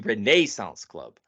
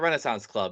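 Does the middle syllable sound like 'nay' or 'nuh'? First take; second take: nay; nuh. First: The middle syllable is a full 'nay' sound. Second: The middle syllable is a reduced 'nuh' sound. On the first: The speaker calls it right. "It is the" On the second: The speaker calls it wrong. "Do not call it the"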